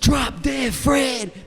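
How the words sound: It is said with a distinct twang. It sounds like the singer's own style. The speaker calls it right. "I kind of got that little twang to my voice"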